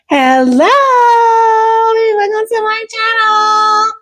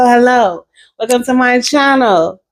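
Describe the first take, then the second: First: It is said in a put-on voice. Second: It is said in her natural voice.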